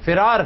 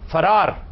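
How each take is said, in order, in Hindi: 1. पहले अक्षर में स्वर 'i' है। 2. पहले अक्षर में स्वर 'a' है। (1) "इसके फे के नीचे जेर है" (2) "ये जबर से इस्तेमाल किया जाता है जो सरासर गलत है"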